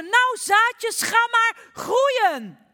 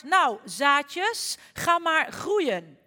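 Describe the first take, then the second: First: Full high shout, very slow; all-out stretched scream at the seeds. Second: Louder, slow command to the seeds; stretched-out loud urging; said very loudly. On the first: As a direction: yell it at the top of your lungs. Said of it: "en schreeuwde". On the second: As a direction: call it out loud and slow at the ground. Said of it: "zei heel hard". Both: Acted.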